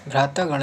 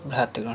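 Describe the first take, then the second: First: भ्रातागण with long taa; wrong form. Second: भ्रातृगण with tri before gan; corrected form. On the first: Teacher shows the error, भ्रातागण with long taa. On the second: Teacher corrects students, भ्रातृगण with tri sound. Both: Shown as a demonstration. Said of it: "नहीं".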